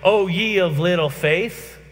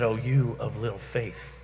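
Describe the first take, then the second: First: It is said in a rebuking tone. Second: It is said in a gentle tone.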